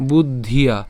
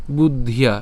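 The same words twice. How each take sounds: The two takes are said the same way.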